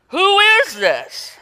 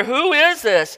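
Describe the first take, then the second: First: Very high, slow, breathless wonder; awestruck disciples. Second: Terrified question. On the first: Disciples awed at Jesus calming the storm, high and slow. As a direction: let it hang in stunned awe. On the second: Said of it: "they were terrified and they asked". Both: Acted.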